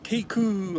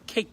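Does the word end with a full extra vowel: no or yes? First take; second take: yes; no. First: The word ends with a full extra vowel. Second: The final k is clipped without a full vowel. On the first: The speaker calls it wrong. "케이크 하면 못 알아들어" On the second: The speaker calls it right. "으크 해야 돼"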